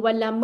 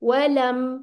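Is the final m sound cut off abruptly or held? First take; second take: cut off; held. First: The final m sound is cut off abruptly. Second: The final m sound is held briefly. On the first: The speaker calls it wrong. "वलम नहीं कर देना" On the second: The speaker calls it right. "मीम के ऊपर भी अब आपने इसकी आवाज फौरन नहीं रोक देनी"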